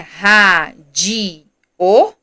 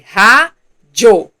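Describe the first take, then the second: First: The word is broken into three separate syllables. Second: The word is broken into two separate syllables. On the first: The speaker calls it wrong. "Professora, mas não é ra, di, o?" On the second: The speaker calls it right. "Não. É ra, jo"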